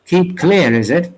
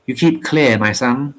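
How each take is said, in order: First: Scoffing, pitch jumps up on clear; mocking echo. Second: Said in the usual way. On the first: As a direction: toss his own words back at him, sneering. Jerry throws the words back.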